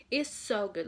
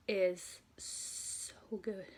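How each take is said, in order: First: Said in the usual way. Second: Very slow, drawn-out "is so good"; swooning over the new album; savoring praise. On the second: Real, not acted. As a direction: linger on each word like tasting it. Raving about the album.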